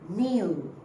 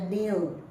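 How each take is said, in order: Both takes have the same delivery.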